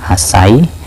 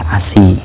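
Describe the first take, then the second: First: The vowel after the s is 'a'. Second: The vowel after the s is 'i'. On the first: "Sinnya boleh dibaca fathah" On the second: "boleh dibaca kasrah"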